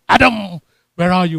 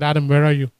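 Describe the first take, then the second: First: It builds to a loud, dramatic crescendo. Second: It is said plainly, without building volume.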